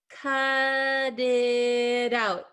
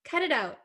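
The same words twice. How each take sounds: First: The phrase is said at a normal pace. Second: The phrase is said very quickly.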